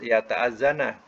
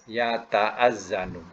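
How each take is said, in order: First: The verb ends with a short 'a' vowel. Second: The verb ends with a short 'u' vowel. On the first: It implies a preceding particle requiring that ending. The speaker calls it wrong. "tak boleh" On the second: It is the plain present-tense form. The speaker calls it right. "Mudhari kita kena bariskan dhamma ya"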